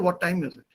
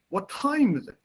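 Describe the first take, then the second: First: The word time gets no special stress. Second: The word time carries strong stress. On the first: The speaker calls it wrong. "You won't say what time is it" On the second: The speaker calls it right. "the stress on that word time is important"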